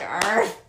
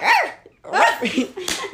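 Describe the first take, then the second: First: Dog bark. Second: High yelped arf; quick, high little bark; dog bark. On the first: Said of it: "No, I'm like". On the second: Showing friends a dog bark, high yelp. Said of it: "starts barking". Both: Shown as a demonstration.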